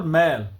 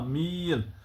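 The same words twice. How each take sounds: First: मैल with a short open ai sound; short open vowel. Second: मील with a drawn-out long ee. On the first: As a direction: say मैल with the lighter ai. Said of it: "उसकी आवाज़ थोड़ी कम होती है". (मैल, छोटी ऐ की आवाज़) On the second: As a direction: stretch the ee in मील. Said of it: "याए मारूफ जो खुलकर आवाज़ दे". (मील, खींच कर ई की आवाज़) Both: Shown as a demonstration.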